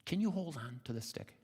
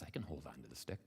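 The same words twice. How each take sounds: First: Higher-pitched gentle question; mother swallow. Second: Low, soft answer; frog's reply. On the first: Mother swallow asks the frog to hold on, higher voice. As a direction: ask in a lifted bird-mother voice. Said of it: "the mother swallow says". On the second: Frog assures the mother swallow, low and quiet. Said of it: "Frankie says". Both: Acted.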